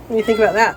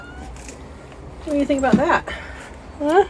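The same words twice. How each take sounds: First: Said in the usual way. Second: Pet talk. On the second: Real, not acted. Cooing to the pet.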